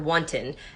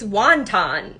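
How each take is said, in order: First: The word is said with its standard pronunciation. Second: The word is said like the dumpling 'wonton'. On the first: "he called her wanton" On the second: "I made it wonton instead"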